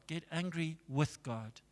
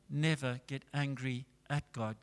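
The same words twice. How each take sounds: First: Hushed advice, leaning on "with"; quiet counsel pointing up "with"; stress on "with God". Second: Hushed warning, leaning on "at"; quiet caution pointing up "at"; stress on "at God". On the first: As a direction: softly set off "with God" as the right way. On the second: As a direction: softly set off "at God" as the mistake. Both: Shown as a demonstration. Contrasts angry at with angry with.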